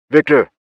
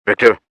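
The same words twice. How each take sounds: First: Higher, louder shout of his name. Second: Loud shout into the radio. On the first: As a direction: yell it again, more desperate. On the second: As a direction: call out his name, loud. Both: Acted. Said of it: "I shouted as if it would help".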